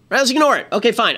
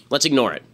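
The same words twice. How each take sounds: First: Sarcastic. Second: Said in the usual way. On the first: Real, not acted. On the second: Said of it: "who just says about his Twitter feed".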